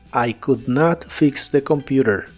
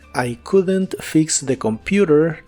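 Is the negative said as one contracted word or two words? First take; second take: two words; one word. First: The negative is said as two separate words. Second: The negative is contracted into one word. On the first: "la segunda suena muy formal y no es tan común"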